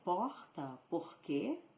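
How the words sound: The R is guttural, like the French R.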